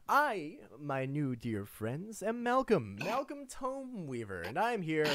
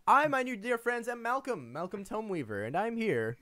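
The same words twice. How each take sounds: First: Grand announcement. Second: High, pompous self-introduction; Malcolm voice. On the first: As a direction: announce yourself grandly to new friends. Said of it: "announces himself". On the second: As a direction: proclaim your name with flourish. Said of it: "I hate that you do that voice". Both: Acted.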